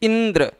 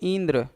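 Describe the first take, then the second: First: The first syllable is said with strong force. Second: The first syllable is said very softly. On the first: The speaker calls it right. "ई पर विशेष बल देना पड़ रहा है" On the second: The speaker calls it wrong. "इसको अगर बहुत धीरे बोलेंगे"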